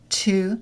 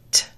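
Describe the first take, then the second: First: The word is said in its full form. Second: The word is said in a reduced form.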